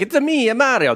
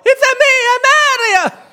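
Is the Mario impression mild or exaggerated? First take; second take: mild; exaggerated. First: The Mario impression is mild and restrained. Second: The Mario impression is strongly exaggerated.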